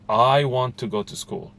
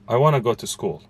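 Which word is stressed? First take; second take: I; none. First: The word I is stretched and stressed. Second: No word is given special stress.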